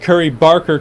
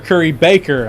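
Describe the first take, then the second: First: The surname is said with an R sound. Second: The surname is said without an R sound. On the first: The speaker calls it right. "I noticed the R" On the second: The speaker calls it wrong. "I called Curry Barker Curry Baker"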